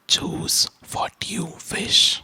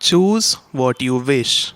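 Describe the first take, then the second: First: It is spoken in a soft whisper. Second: It is spoken in a normal voice. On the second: "talking normally"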